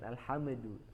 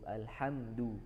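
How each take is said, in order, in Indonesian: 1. Bunyi m dilepas dengan sedikit pantulan. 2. Bunyi m ditutup dengan bersih, tanpa gema. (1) "jangan alhamdu" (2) "Alhamdu cukup alhamdu"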